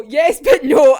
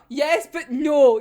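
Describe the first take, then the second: First: "yes but no" blurted much louder. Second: Slow, drawn-out "yes but no". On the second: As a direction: stretch out "yes but no" reluctantly. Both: Real, not acted. Torn reaction to manga reveal.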